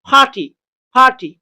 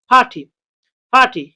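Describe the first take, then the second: The two takes are said the same way.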